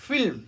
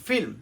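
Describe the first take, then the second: No difference in how they are said.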